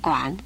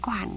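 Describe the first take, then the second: First: The word is said with a dipping third tone. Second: The word is said with a falling fourth tone. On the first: The speaker calls it wrong. "我们念馆" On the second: The speaker calls it right. "实在是应该念惯的"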